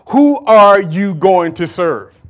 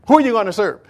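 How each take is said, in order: First: Slow, pressing question to the crowd; slow challenge. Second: Said in the usual way. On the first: Acted. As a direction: drag out each word of the challenge. Prophet challenging the people.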